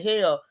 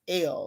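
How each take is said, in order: First: The word begins with an h sound. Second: The word sounds like the letter L. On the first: "she don't say hell" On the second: "She says L, like the letter L"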